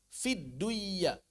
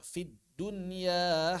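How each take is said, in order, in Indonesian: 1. Bunyi n menyatu menjadi y ganda. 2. Bunyi n dibaca jelas sebelum y. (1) "Bukan dibaca fidduyya" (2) "tapi dibaca fid dunya"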